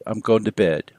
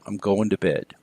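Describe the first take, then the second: First: The word to is reduced to a schwa. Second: The same.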